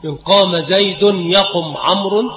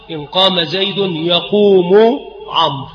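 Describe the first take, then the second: First: يقم said yaqum, short, no final vowel; jussive verb. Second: يقوم said yaqūmu, long ū and final u; slow example with -u sounded on يقوم; nominative verb. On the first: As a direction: close يقم straight onto the m. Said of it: "الجزم". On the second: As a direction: stretch يقوم out to a full damma ending. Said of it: "فيجوز الرفع". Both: Shown as a demonstration.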